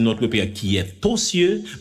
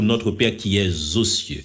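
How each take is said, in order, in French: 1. Aucun son z ne lie le verbe à 'aux'. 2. Un son z lie le verbe à 'aux'. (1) "moi pas qu'à dire" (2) "les m'a fait liaison ... m'a dit plutôt"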